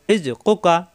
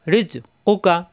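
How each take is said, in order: Both takes have the same delivery.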